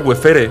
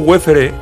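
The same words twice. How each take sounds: First: The stress falls on the second syllable. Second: The stress falls on the first syllable. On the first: The speaker calls it right. "lo correcto sería Wefere, porque no tiene acento" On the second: The speaker calls it wrong. "yo le digo Wefere"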